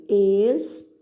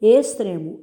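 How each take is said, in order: First: "Extremo" broken into ex, tre, mo; separando sílabas. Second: Said in the usual way. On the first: Shown as a demonstration. ("Extremo" sílaba por sílaba, com pausas) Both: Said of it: "separe as sílabas dessas palavras".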